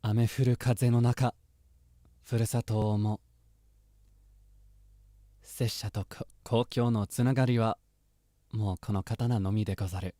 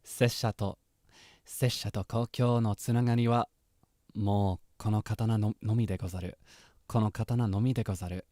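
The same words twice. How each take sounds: First: Solemn samurai line; samurai quote reading. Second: Steadier solemn samurai line; samurai quote, retry. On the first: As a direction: read it like a wandering swordsman. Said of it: "Genshin reference. I'll try". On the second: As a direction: try the swordsman line once more. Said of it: "I wanna try that again". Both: Acted.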